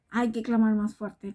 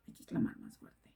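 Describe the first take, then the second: First: Said in the usual way. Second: Hushed preacher whisper. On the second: Shown as a demonstration. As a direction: drop to a whisper on "clamar más fuerte".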